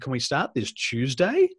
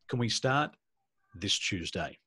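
First: The voice rises at the end. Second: The voice falls at the end. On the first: "And the tone goes up"

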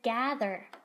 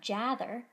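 First: The g at the start is a hard g. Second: The g at the start is a soft j. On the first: The speaker calls it right. "so now I know it is the hard sound" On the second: The speaker calls it wrong. "It's not jather"

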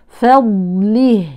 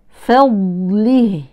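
No difference in how they are said.

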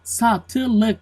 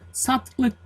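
First: The word is said with three syllables. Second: The word is said with two syllables. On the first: The speaker calls it right. "doğrusu satılık. 3 hece" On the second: The speaker calls it wrong. "Satlık 2 hece"

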